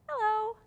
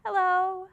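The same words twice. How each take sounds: First: High sing-song hello. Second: Said in the usual way. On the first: Shown as a demonstration. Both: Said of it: "So to sign hello".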